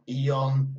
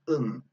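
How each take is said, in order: First: The suffix is a two-part 'ee-on' sound. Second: The suffix is a short, reduced 'un' sound. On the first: The speaker calls it wrong. "not eon" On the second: The speaker calls it right. "Listen to the pronunci pronunciation"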